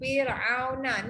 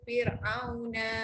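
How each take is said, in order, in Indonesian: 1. Na terakhir itu pendek. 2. Na terakhir itu dipanjangkan. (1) "na pendek eh" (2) "jangan baca fir'auna, tak"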